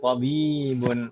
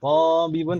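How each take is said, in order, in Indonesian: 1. Vokal pertama pendek, yang kedua panjang. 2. Vokal pertama panjang, yang kedua pendek. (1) "baknya yang panjang, toknya pendek"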